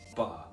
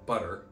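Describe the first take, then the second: First: The middle T is a glottal stop. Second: The middle T sounds like a quick d. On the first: "in England, they're using an uh sound" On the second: "In America, we're using a d sound"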